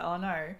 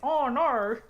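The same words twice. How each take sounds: First: It is said plainly, with normal energy. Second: It is said exaggerated, with much more energy.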